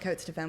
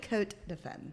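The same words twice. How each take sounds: First: The S sound in the name is pronounced. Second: The S sound in the name is silent. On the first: The speaker calls it wrong. "A lot of people pronounce it Cote de Femme because that's the way it's spelled" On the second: The speaker calls it right. "technically it's pronounced Cote de Femme. The S is silent"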